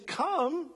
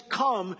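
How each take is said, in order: First: Higher, gentle invitation; Jesus gently inviting Peter to come. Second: Said in the usual way. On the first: Shown as a demonstration. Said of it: "he's saying". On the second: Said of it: "what is implicit in the command to come".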